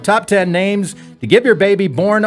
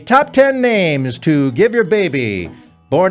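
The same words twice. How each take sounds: First: It is said in the speaker's own normal voice. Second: It is said in an imitated talk-show host voice.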